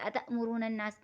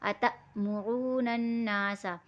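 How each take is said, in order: First: The phrase is said quickly and slurred. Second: The phrase is said slowly and clearly articulated. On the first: The speaker calls it wrong. "जल्दी पढ़ने में अतमुरूनन्नास नहीं" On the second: The speaker calls it right. "जितना निखारेंगे उतने हमारे हुरूफ अच्छे से अदा होंगे"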